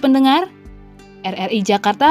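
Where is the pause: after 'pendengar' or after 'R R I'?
after pendengar. There is a pause right after 'pendengar'. The radio station RRI Jakarta is turning seventy-five. "ada dua makna yang kita bisa bandingkan"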